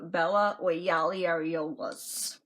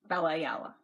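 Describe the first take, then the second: First: The surname is garbled into several extra syllables. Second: The surname is said as three clear syllables. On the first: Someone else mispronounced the name. The speaker calls it wrong. "that's how she pronounced my name" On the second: This is the name as its owner says it. The speaker calls it right. "My name"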